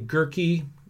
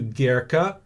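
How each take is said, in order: First: The name is said with an English pronunciation. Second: The name is said with a German pronunciation. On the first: "the common, local, anglicized pronunciation" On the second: "as opposed to"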